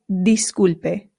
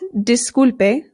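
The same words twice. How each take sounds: First: The I is an 'ee' vowel. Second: The I is an English-style 'ih' vowel. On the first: The speaker calls it right. "the I always makes the sound E" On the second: The speaker calls it wrong. "So this is not disculpe"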